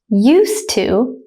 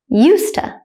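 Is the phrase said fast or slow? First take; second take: slow; fast. First: It is said slowly and carefully. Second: It is said quickly at natural speed. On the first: "I will say it slowly first" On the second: "then at a native speaker speed second"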